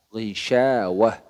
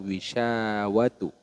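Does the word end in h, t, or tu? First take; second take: h; tu. First: The word ends with an h sound. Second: The word ends with a tu sound. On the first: The speaker calls it right. "harus dibaca hak" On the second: The speaker calls it wrong. "atau wisyawatu"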